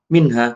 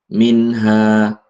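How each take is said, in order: First: The word is said in an overdone, hurried way. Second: The word is said naturally and smoothly. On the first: The speaker calls it wrong. "Jangan terlalu lebay sehingga kayak kayak tergesa-gesa" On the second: The speaker calls it right. "Jadi seperti itu"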